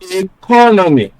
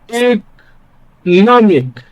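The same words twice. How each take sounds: First: The stress is not on the third syllable. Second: The stress is on the third syllable. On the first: The speaker calls it wrong. "doesn't sound natural" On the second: The speaker calls it right. "This sounds more natural"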